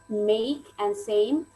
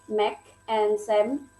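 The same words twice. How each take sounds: First: The vowels glide as diphthongs. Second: The vowels are plain, without a glide. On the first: The speaker calls it right. "we have to put like diphthongs there" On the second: The speaker calls it wrong. "We tend to like make and same"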